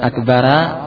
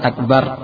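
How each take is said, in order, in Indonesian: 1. Kata ini berakhir dengan vokal 'a' tambahan. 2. Kata ini berakhir pada 'r' tanpa vokal. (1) "bukan akbara" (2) "bukan akbar"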